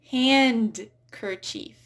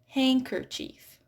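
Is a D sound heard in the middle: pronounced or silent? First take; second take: pronounced; silent. First: A D sound is heard after the N. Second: No D sound is heard after the N. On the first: The speaker calls it wrong. "I hear" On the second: The speaker calls it right. "but it's actually handkerchief. Silent D"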